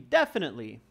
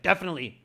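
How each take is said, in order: First: It sounds pleasant and confident. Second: It sounds grumpy and annoyed. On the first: The speaker calls it right. "Carry it with a nice voice" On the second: The speaker calls it wrong. "Don't be grumpy. Don't be like"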